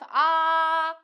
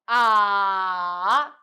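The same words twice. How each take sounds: First: The pitch stays high and level. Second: The pitch dips low, then rises. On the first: "five, five" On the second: "two, one, four"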